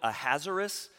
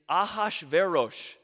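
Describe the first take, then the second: First: The name ends with an 'us' sound. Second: The name ends with an 'osh' sound. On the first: The speaker calls it wrong. "do you know people call it Ahasuerus?" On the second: The speaker calls it right. "It's Ahasverosh. So that's how you pronounce it"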